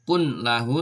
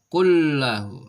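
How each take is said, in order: First: The n is pronounced clearly before the l. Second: The n merges fully into a doubled l. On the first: The speaker calls it wrong. "Tidak boleh" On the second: The speaker calls it right.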